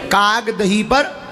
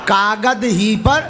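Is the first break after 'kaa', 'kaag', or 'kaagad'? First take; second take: kaag; kaagad. First: The first word break comes after 'kaag'. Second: The first word break comes after 'kaagad'.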